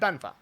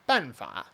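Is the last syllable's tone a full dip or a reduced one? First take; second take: reduced; full. First: The last syllable has a reduced, incomplete third tone. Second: The last syllable has a full dipping third tone. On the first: This is how native speakers actually say it. "they're just kind of going banfa, you know, and it's not really a full third tone" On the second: This is how the rule says it should be said. "the principle here is that uh, this character should be pronounced"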